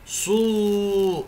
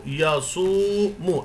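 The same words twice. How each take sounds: First: صو said higher, with only a short vowel and no length; short syllable demo. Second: يصوم very slow, the و held for two full beats; two-beat lengthening. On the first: Teacher contrasting the short صو for pupils: clipped, higher. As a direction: clip صو short to show the mistake. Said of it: "فنقول يصو، صو، يصوم". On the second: Teacher giving pupils the correct long يصوم: slow, held و. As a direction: stretch the و in يصوم to two counts. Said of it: "هذه الكلمة بمقدار حركتين فنقول". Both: Shown as a demonstration.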